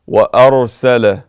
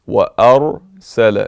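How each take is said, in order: First: The r sound is heavy and full. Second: The r sound is heavy and full.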